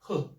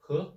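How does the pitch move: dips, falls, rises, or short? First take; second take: falls; rises. First: The pitch falls strongly and forcefully. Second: The pitch rises like a question. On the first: "the fourth one, strong, very strong" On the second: "the second one, tone, is like question"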